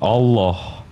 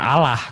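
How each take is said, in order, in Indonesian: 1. Bunyi L ditahan panjang dan ditekan. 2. Bunyi L pendek dan tunggal. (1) "L-nya double, ditekan Allah" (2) "Bukan Allah. Kalau Allah, L-nya satu"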